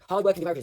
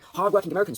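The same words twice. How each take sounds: First: The phrase is rushed through quickly. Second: The phrase is said slowly, with weight. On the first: The words are skipped over. The speaker calls it wrong. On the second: The words carry gravity. The speaker calls it right.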